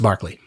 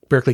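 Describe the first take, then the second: First: The first syllable sounds like 'bark'. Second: The first syllable sounds like 'burk'. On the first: This is how the famous person's name is said. "but it's pronounced Barclay" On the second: This is how the California place name is said. "like Berkeley, California"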